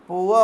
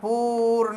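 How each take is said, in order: First: It glides from oo into an uh sound. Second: It has a plain long oo vowel with r. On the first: The speaker calls it right. "पुआ हो जाएगा" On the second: The speaker calls it wrong. "P double O R पूर नहीं होगा"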